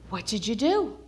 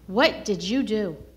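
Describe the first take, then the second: First: It is said in a happy, excited tone. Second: It is said in a scolding, stern tone.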